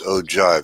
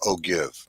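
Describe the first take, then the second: First: The G sounds like a J. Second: The G is a hard G sound. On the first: The speaker calls it right. "The G is pronounced like a J" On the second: The speaker calls it wrong. "it looks like it's spelled ogive"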